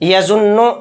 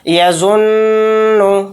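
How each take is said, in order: First: The nasal n sound is cut short abruptly. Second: The nasal n sound is held briefly. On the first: "एकदम नहीं कहेंगे तो फिर गुन्ना ख़त्म हो गया, जो कि ये गलत है" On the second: "गुन्ना इस तरह से कर रहे हैं हम"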